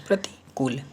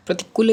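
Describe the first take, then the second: First: प्रतिकूल with long "kool"; correct pronunciation. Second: प्रतिकूल high and loud with short "kul"; wrong pronunciation. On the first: Teacher giving the right word, प्रतिकूल as "prati-kool". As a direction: lengthen the "oo" in प्रतिकूल. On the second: Teacher rejecting an error, प्रतिकूल high with short "kul". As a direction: clip the "u" in प्रतिकूल. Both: Shown as a demonstration. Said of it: "प्रतिकूल नहीं".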